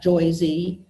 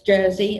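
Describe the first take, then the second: First: The R is dropped, giving an oy vowel. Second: The R is clearly sounded after the vowel. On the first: The speaker calls it wrong. "it's not Joyzy" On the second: The speaker calls it right. "we do put an R in Jersey"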